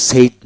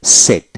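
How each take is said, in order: First: সেইড with a gliding ei before d; mistaken ei vowel. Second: সেড with a single e, no i glide; short e vowel. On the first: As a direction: stretch e into i in সেইড. (সেইড, ই-সহ ভুল উচ্চারণ) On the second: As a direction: say সেড with e straight into d. (সেড, শুধু একার দিয়ে) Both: Shown as a demonstration. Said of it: "উচ্চারণটা হলো সেইড নয়".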